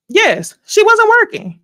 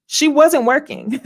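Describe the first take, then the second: First: High, loud and drawn out on wasn't; emphatic disbelief. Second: Said in the usual way. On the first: Real, not acted. Talking to viewers, exasperated, punching wasn't high and loud. Exclaiming the cast member wasn't working.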